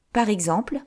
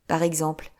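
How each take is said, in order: First: Rising, curious «Par exemple?»; teasing question. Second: Said in the usual way. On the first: Acted. Chiffonnette teasing Anthony with a rising «Par exemple?».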